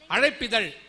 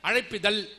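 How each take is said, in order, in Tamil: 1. கடைசி எழுத்து 'zh' ஒலி தான். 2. கடைசி எழுத்து சாதாரண 'l' ஒலி தான்.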